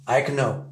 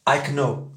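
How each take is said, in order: First: Know with the O gliding toward OU; American know. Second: I know with a flat French O; wrong French O. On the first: Teacher modelling the American O in know. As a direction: let the O in know slide toward OU. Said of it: "la sonorité problématique ici, c'est le O". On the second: Teacher showing the wrong way, know with a French O. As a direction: say know with a pure French O, no glide. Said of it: "On dit pas". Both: Shown as a demonstration.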